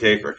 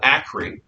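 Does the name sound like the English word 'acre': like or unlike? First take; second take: like; unlike. First: The name sounds like the word 'acre'. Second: The name does not sound like 'acre'. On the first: Other people say it this way because of the spelling. "I've heard people pronounce Acre because it looks like acre" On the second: This is how the speaker has always said it. "a place that I've always called Acre"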